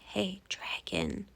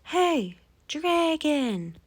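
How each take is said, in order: First: It is whispered very softly. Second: It is shouted very loudly.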